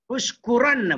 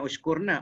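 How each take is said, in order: First: "Ushkuranna" high and loud, with ran and doubled n; correct form, ushkuranna. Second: "ushkurna" with r straight into na; wrong form, ushkurna. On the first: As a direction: punch the middle of "Ushkuranna", hold the nn. (sebut "Ushkuranna" dengan nun tebal) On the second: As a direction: say "ushkurna" without the ran syllable. (sebut "ushkurna" tanpa bunyi ran) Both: Shown as a demonstration. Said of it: "Bukan ushkurna".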